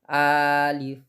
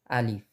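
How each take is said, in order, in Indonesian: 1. Vokal pertama dipanjangkan. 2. Vokal pertama pendek, tidak dipanjangkan. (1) "bukan alif" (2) "tapi alif, karena bukan termasuk mat"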